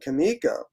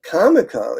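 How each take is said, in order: First: The first syllable does not sound like 'comic'. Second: The first syllable sounds like the start of 'comic'. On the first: The speaker calls it wrong. "it doesn't sound right to me" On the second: The speaker calls it right. "is how you, how I will always say it"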